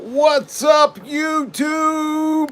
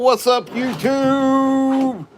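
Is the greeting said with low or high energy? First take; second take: high; low. First: It is said with high energy. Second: It is said with low energy.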